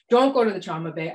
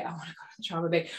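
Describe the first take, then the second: First: Firm word to herself; self-admonishing. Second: Quick, soft aside to herself; small inner protest. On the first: Doctor talking herself out of trauma bay, self-admonishing. Acted inner argument with herself. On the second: Doctor arguing with herself about trauma bay, small protest. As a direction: rush it out under the voice. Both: Retold or imitated.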